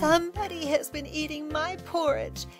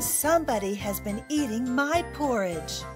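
First: The voice is small, high and squeaky. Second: The voice is at a medium pitch. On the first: The smallest bear is speaking. "He squeaked in his teeny tiny voice" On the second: The middle-sized bear is speaking. "In her medium-sized voice"

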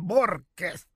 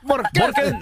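First: The stress is on the first syllable. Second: The stress is on the second syllable.

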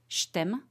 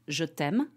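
First: The syllables glide together, almost into one. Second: Both syllables are said clearly and separately. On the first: "here's the glided pronunciation, like we would say it when we speak fast every day" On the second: "it's the simplest way"

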